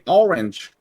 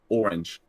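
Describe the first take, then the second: First: It is said in a Southern accent. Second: It is said in a New York accent. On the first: "And in the South, they say orange" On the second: "in New York, uh, they make the all the all sound a lot"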